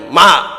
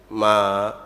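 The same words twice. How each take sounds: First: It is said louder than before. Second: It is said softly and gently.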